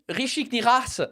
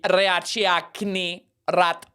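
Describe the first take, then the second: First: The name is said with a French accent. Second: The name is said with a Spanish accent. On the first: "in fr- French people would be like" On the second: "In Spanish"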